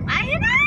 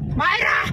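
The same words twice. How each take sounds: First: The name is shouted even louder, like an alarm. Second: The name is called out loudly. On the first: "Lakasan mo pa pag hindi pa mal- marinig"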